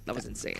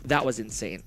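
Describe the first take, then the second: First: Breathless near-whisper; gasping it out, winded; out of breath. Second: Low and winded after the win; out of breath, hushed amazement. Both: Real, not acted. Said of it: "Gotta catch my breath there".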